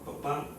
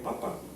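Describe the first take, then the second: First: The stress is on the last syllable. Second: The stress is on the first syllable. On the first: A parent, a father. "lleva un acento escrito en la última pa" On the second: A potato, a vegetable. "si yo le quitara este acento escrito, pues diría papa"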